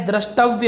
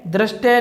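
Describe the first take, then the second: First: द्रष्टव्य with "vya" at the end; the corrected द्रष्टव्य, with its full v-y ending; correct form. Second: दृष्टय said "drashte", with no v; the mistaken दृष्टय, ending in "te"; wrong form. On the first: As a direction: say द्रष्टव्य as "drash-tav-ya". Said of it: "द्रष्टव्य होता है दोस्तों". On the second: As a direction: say दृष्टय in two syllables, "drash-te". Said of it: "दृष्टय नहीं होता है". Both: Shown as a demonstration.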